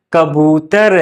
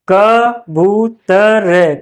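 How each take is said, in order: First: Said in the usual way. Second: "कबूतर" very slow in separate syllables. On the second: Shown as a demonstration. Teacher spelling out an example, "कबूतर" slow and split. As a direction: sound out "कबूतर" piece by piece.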